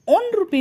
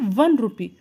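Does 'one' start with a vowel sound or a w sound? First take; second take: vowel sound; w sound. First: The word 'one' starts with a plain vowel. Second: The word 'one' starts with a w sound. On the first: The speaker calls it wrong. "ओन रुपी नहीं पढ़ेंगे" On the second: The speaker calls it right. "इसे वन rupee"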